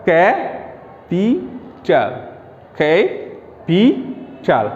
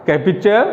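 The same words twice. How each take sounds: First: ক্যাপিটাল very slowly in three separate pieces; broken into syllables. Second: Said in the usual way. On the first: Shown as a demonstration. Teacher breaking a trisyllable apart, very slow syllables. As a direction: draw out each syllable of ক্যাপিটাল, pausing after each. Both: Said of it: "আমরা একটু ভেঙে ভেঙে উচ্চারণ করি".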